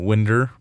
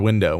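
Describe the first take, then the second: First: The word ends with an 'er' sound. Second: The word ends with an 'oh' sound. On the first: "older people say winder" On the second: "for window"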